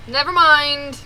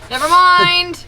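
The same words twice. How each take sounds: First: Laughing through the words, slower. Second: Loud, fed-up cry; exasperated shout. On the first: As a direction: give up with a laugh. Repeated while laughing. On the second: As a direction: throw up your hands and yell it. Bear rejects the jerky, shouted. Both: Real, not acted.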